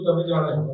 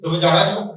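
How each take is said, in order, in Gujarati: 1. તે સાદા વિધાનના સૂરમાં બોલાય છે. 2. તે પ્રશ્નાર્થ સૂરમાં બોલાય છે. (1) "સીધું વાક્ય બોલીએ તો" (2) "પ્રશ્ન પૂછવાનો હોય તો"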